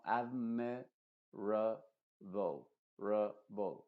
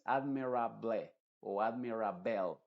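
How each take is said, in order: First: "admirable" separado, con "rable" como "ro-bol" neutro; dos schwas finales. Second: "admirable" como "admirable" y "admirabel", con A y E claras; vocales plenas. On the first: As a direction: di "admirable" por sílabas, reduciendo las dos últimas. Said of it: "Las dos últimas son schwas". ("rable" con dos schwas) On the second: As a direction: di "admirable" a la española, vocales abiertas. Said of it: "No es admirable o admirable". ("admirable" sin ninguna schwa) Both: Shown as a demonstration.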